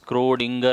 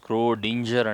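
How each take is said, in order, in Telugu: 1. అది hard g శబ్దంతో పలుకుతారు. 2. అది j శబ్దంతో పలుకుతారు. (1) "దీన్ని స్క్రోడింగర్ అంటారు" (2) "స్క్రోడింజర్ అంటారు"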